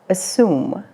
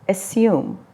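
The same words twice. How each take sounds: First: It is said with an American accent. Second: It is said with a British accent. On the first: "Assume is the American English pronunciation" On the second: "The British English pronunciation is assume"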